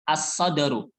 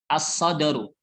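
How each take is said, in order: No difference in how they are said.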